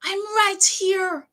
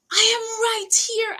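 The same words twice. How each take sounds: First: Very slow, high "I'm right here", each word drawn out; retold plea. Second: Slow, high, pressing "I am right here"; retold plea. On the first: Repeating it to the nurse, a slow drawn-out plea. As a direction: lean on "right" slowly, half pleading. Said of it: "I said". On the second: Insisting to the nurse, a mild retold plea. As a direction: stretch out "I am right here", pleading a little. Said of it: "And I'm like".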